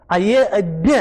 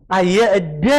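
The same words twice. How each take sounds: No difference in how they are said.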